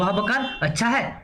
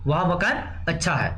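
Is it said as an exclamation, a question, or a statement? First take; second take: exclamation; statement. First: It is said with an exclamatory, surprised tune. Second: It is said with a plain, flat statement tune. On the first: It expresses wonder at how good the house is. "विस्मय उत्पन्न कर रहा है।" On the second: It simply states that the house is good. "सामान्य शब्द हो गया।"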